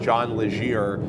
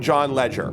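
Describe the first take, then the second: First: The surname is pronounced as Legere. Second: The surname is pronounced like the word ledger. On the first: The speaker calls it wrong. "We've been pronouncing the C E O of T-Mobile's name as John Legere" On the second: The speaker calls it right. "It's apparently John Ledger"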